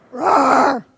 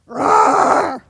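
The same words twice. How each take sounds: First: Loud growled roar; tiger roar. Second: Loud, growled tiger roar. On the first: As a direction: roar like a big cat. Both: Shown as a demonstration. Showing the audience how tigers roar, loud. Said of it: "And now we're gonna be tigers".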